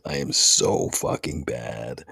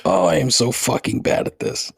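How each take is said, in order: First: Dejected groan. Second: Said in the usual way. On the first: Real, not acted.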